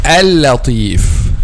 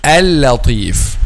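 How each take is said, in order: First: The L sound is light and thin. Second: The L sound is light and thin.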